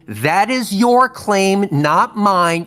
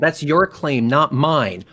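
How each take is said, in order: First: It is said slowly and deliberately. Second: It is said at normal speed.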